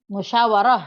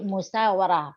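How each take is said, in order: First: The second consonant is an 'sh' sound. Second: The second consonant is an 's' sound. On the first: This is the original Arabic form. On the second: This is the form changed in Indonesian use. "pakainya sin"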